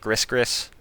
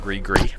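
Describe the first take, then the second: First: The final s sound is pronounced. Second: The final s sound is silent. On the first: The speaker calls it wrong. "and not Gris Gris" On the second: The speaker calls it right. "I will call it the Gree Gree"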